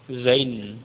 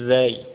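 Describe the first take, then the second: First: The word ends with an n sound. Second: The word ends on a vowel, without n. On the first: The speaker calls it wrong. "Bukan zain" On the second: The speaker calls it right. "nama hurufnya adalah az-zayu"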